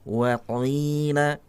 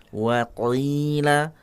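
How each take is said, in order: First: The qaf is made exaggeratedly thick and heavy. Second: The qaf is made exaggeratedly thick and heavy.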